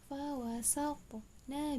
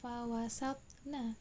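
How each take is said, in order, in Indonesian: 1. Huruf tengahnya diucapkan dengan pantulan. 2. Huruf tengahnya diucapkan datar, tanpa pantulan. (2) "Bukan fawasatna"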